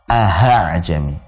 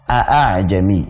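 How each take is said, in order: First: The second hamza is said as an h sound. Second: Both hamzas are said as clear glottal stops. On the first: "dibaca dengan huruf ha ... Jadi salah" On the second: "membaca dua hamzahnya dengan tahqiq ... ini jelas salah"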